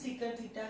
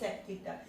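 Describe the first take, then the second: First: The first word is said in full. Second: The first word is cut to one syllable. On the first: The speaker calls it right. "इसको हम सीकेंट theta ही बोलेंगे" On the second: The speaker calls it wrong. "ऐसे नहीं बोलना सेक theta"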